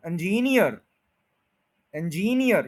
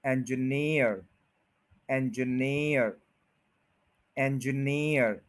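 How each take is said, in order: First: इंजीनियर said the Indian way, even beats, no stress on नियर; the common wrong इंजीनियर; mock wrong Indian-style इंजीनियर; wrong pronunciation. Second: इंजीनियर slow, एंज light, weight on नियर; teacher's slow model of इंजीनियर; stress on near. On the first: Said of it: "ये गलत है". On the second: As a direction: glide over एंज and land on नियर. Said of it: "एंज को आपने ignore करना है थोड़ा सा". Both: Shown as a demonstration.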